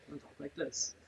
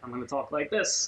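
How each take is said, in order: First: It is said in a calm, low-key voice. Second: It is said in a lively, energetic voice.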